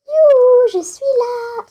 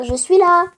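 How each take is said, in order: First: High, loud sing-song call of youhou; calling out loudly. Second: Said in the usual way. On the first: Pretend. Player calling to Eva, high loud youhou call. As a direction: shout it up high like calling across a room.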